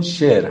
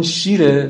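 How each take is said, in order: First: شیر said with a long "e", shēr; the lion word شیر with a drawn kasre; majhul ye. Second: شیر with a long "ee", sheer; ma'ruf ye. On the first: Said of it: "اون یاءش مجهوله". (شیر با یای مجهول، کسرهٔ کشیده) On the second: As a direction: say شیر as milk, with a clear "i" vowel. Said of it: "این یاءش معروفه". (شیر با یای معروف) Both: Shown as a demonstration.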